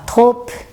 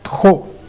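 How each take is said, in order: First: A final P sound is pronounced. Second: No final P sound is pronounced. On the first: The speaker calls it wrong. "às vezes alguém fala trop" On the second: The speaker calls it right. "a gente não pronuncia o P no final, a gente fala trop"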